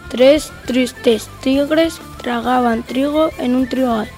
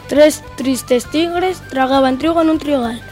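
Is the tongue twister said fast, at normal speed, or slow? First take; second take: slow; normal. First: It is said at a slow speed. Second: It is said at a normal speed. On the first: "Vamos con la velocidad lenta" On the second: "Vamos con la velocidad normal"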